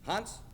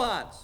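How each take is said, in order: First: The name is called at a moderate volume. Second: The name is shouted at full volume.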